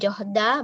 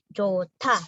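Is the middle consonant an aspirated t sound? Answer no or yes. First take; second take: no; yes. First: The middle consonant is not an aspirated t. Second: The middle consonant is an aspirated t. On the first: The speaker calls it wrong. "Bukan johda" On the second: The speaker calls it right. "dibaca seperti tiet"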